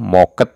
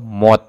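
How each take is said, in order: First: The word ends with a ket sound. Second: The word ends with a t sound. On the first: "atau moket" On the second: "atau mot"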